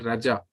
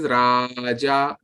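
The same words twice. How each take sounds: First: The marked vowel is cut short. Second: The marked vowel is held long. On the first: The speaker calls it wrong. "not Raja" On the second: The speaker calls it right. "this is Raja"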